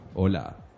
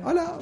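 First: It is said in a lower, deeper voice. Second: It is said in a higher, forced voice.

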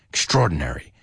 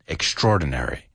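The two takes are said the same way.

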